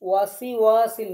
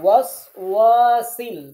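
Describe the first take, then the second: First: An extra i vowel follows the first syllable. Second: The first syllable ends cleanly on s. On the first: The speaker calls it wrong. "ওয়াসি ওয়াসিল না" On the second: The speaker calls it right.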